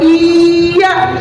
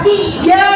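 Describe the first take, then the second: First: The y is single and the vowel is drawn out. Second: The y is doubled with a sharp, clipped stop. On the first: The speaker calls it wrong. "Jangan dipanjangin, nggak boleh. Iya, salah" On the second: The speaker calls it right. "Harus gentak"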